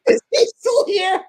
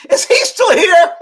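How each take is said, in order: First: High, loud, slow through laughter; laughing mock Oprah. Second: High, loud, slow mock disdain; mock Oprah. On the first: Retelling Oprah's rude question, laughing high mock voice. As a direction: laugh while mimicking the snub. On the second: Imitating Oprah interrupting the shoot, high mock disdain. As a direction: sneer it as the rude star. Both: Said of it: "and she goes".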